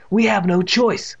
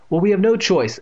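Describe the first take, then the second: First: Slow, higher, mildly angry; measured, irritated concession. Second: Lightly voiced mother, higher and louder; a hint of an exasperated mother; mother's voice. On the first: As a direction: give in slowly with a touch of anger. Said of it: "in the voice of a angry narrator". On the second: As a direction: pitch it up for the insisting mother. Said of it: "Evan heard his mother said". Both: A narrator's reading.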